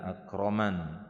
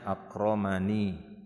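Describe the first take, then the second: First: The word ends on a consonant, final vowel dropped. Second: The word ends with a short final vowel. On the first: It is the form used when pausing at the verse end. "waqaf disukunkan" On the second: It is the original full form of the word.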